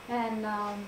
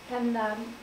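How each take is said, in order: Both takes have the same delivery.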